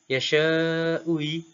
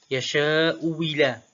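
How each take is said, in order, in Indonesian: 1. Hamzah kedua dilembutkan di antara bunyi. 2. Hamzah kedua berubah menjadi bunyi w. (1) "tashil hamzah yang kedua ui" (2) "Ibdal hamzah kedua wawan khalisah"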